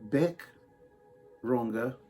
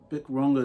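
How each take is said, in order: First: The first name has the vowel of 'beck'. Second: The first name has the vowel of 'bick'. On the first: The speaker calls it right. "It's pronounced Beck" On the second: The speaker calls it wrong. "I think I'm saying her name wrong"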